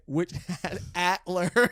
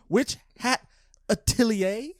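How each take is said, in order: First: The last word is said clipped, as atler. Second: The last word is said in full, as atelier. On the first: The speaker calls it wrong. "which I have legitimately been pronouncing it" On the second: The speaker calls it right. "The title of this manga is apparently pronounced"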